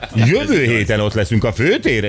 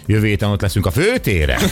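First: The stress falls on jövő héten. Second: The stress falls on főtéren. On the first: The speaker calls it wrong. "Mondd azt, hogy jövő héten" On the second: The speaker calls it right. "a főtéren van a hangsúly"

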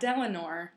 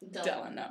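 First: The name ends with an added r sound. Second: The name ends on a vowel with no r. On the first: The speaker calls it wrong. "Not Delanor" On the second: The speaker calls it right.

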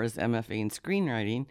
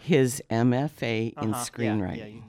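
First: The phrase is spoken quickly and run together. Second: The phrase is spoken slowly and clearly. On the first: The speaker calls it wrong. "when you say that fast" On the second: The speaker calls it right. "Say that slower"

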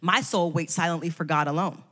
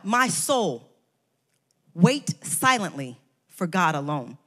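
First: It runs on without a pause after "My soul." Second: There is a pause after "My soul."

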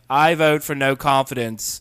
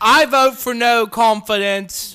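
First: It is delivered with less drama, toned down. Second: It is delivered with too much drama.

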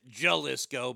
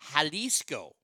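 First: It begins with an English J sound. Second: It begins without an English J sound. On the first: The speaker calls it wrong. "Americans would pronounce it Jalisco" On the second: The speaker calls it right. "they ain't got a J there, so it's Jalisco"

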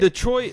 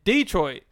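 First: It is said the urban, non-Southern way. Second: It is said the Southern way.

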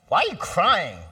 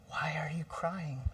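First: It sounds dismissive and impatient. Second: It sounds caring and interested.

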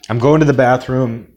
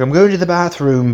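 First: It is said in an American accent. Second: It is said in a British accent. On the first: "I'll translate that into American English" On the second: "I've been told my British accent is terrible"

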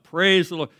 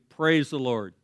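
First: It is shouted loudly. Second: It is said at a normal, quiet volume.

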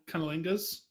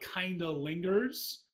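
First: It is said fast, running the sounds together. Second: It is said at a normal pace, clearly.

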